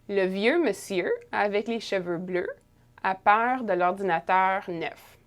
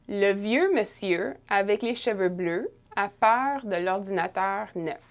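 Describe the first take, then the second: Both takes have the same delivery.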